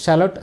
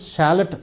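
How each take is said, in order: First: It is said in a British accent. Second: It is said in an American accent. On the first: "അത് ബ്രിട്ടീഷുകാരാണ് പറയുന്നത് ഷാലഡ് എന്ന് പറയും" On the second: "അമേരിക്കൻസാണ് പറയുന്നതെങ്കിൽ ഷാലറ്റ് എന്ന് പറയും"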